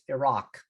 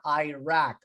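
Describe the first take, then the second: First: It does not sound like 'I rack'. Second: It sounds like the two words 'I rack'. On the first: The speaker calls it right. "It's Iraq" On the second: The speaker calls it wrong. "I didn't rack anything"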